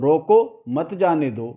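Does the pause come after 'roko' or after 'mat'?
after roko. There is a break right after 'roko'. Stop him; do not let him go. "ये कहा गया"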